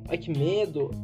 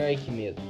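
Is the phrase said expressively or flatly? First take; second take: expressively; flatly. First: It is said expressively, with lively, dramatic intonation. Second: It is said flatly, with plain, neutral intonation. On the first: The speaker calls it right. "tem que ler "Ai, que medo! Ai, que medo!" nesse pique" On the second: The speaker calls it wrong. "Não pode ser 058 Pode Crer "Ai, que medo!""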